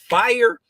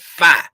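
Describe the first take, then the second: First: The word ends with a clear R sound. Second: The word ends without an R sound. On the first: "Instead of saying fire" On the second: "where I'm from in Fort Lauderdale, Florida, we call it fi"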